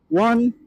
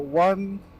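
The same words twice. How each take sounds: First: Closed visor, with noise reduction turned on. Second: Open visor, with noise reduction turned off.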